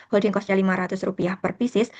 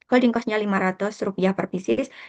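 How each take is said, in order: No difference in how they are said.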